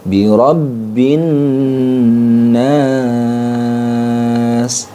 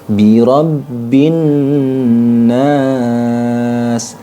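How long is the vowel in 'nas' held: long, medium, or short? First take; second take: long; medium. First: The vowel in nas is held for three beats. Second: The vowel in nas is held for two beats. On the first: "Kalau tiga alif" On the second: "Itu kalau dua alif"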